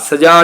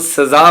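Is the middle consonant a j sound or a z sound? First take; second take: j sound; z sound. First: The middle consonant is a j sound. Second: The middle consonant is a z sound. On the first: The speaker calls it wrong. "ਸਜ਼ਾ ਨਹੀਂ ਹੁੰਦਾ ਲਫ਼ਜ਼" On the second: The speaker calls it right. "ਜੱਜੇ ਪੈਰ ਬਿੰਦੀ ਲਗਾ ਕੇ"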